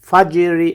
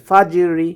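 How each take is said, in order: No difference in how they are said.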